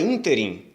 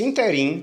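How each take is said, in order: First: "ínterim" stressed on the opening ÍN; "ínterim" as ÍN-te-rim, first syllable strong; correct stress on first syllable. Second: "interim" stressed on the last syllable, in-te-RIM; mistaken stress shift. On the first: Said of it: "Se a pronúncia fosse interim". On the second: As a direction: push the stress to the end of "interim". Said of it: "Se a pronúncia fosse interim, como muita gente faz". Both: Shown as a demonstration.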